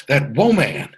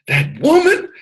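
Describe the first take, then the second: First: Said in the usual way. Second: Much higher emphatic repeat. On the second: Shown as a demonstration. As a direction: lift "woman" high, like calling to the ladies on the call. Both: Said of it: "And for the ladies on the call".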